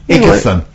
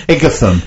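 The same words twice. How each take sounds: Both takes have the same delivery.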